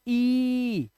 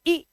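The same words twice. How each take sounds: First: ई held long and steady; drawn-out, sustained ई. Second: Short, quick ई; clipped-length short ई vowel. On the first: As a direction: stretch ई out into a long vowel. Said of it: "ई को लंबा लेते हैं". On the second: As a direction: say ई short, not drawn out. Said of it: "छोटी वाली ई". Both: Shown as a demonstration.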